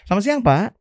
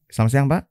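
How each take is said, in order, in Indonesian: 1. Salam itu diucapkan dengan nada yang hidup dan berirama. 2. Salam itu diucapkan datar, tanpa nada. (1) "Nada, it makes a difference" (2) "bukan yang"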